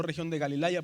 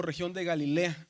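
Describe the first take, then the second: First: "Galilaya" with an "ay" glide, ga-li-LA-ya; A plus Y in Galilaya, instead of E; AI read as written. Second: "Galilea" ending in E-A, ga-li-LE-a; no "ay" glide in Galilea; AI read as E. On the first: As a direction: say región de Galilaya with LA-YA at the end. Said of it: "no región de Galilaya". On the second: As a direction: say región de Galilea with a clear LE. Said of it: "aquí la pronunciación es como una E". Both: Shown as a demonstration.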